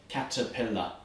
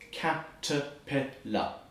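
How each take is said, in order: First: The word is said moderately fast. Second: The word is said very slowly.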